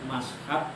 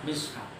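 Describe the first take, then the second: First: The vowel after the m is a. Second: The vowel after the m is i. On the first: "mashaf di fathil mim" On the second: "mishaf di kasril mim"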